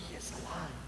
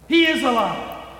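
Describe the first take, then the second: First: It is said in a meek whisper. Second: It is said in a loud shout.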